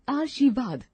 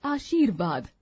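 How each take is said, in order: First: आशीर्वाद with the r moved before shi, aarshivad; wrong pronunciation. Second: Said in the usual way. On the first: Shown as a demonstration. Teacher reading the wrong form, r before shi. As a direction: misplace the r in आशीर्वाद. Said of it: "अशुद्ध शब्द". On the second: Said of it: "शुद्ध शब्द".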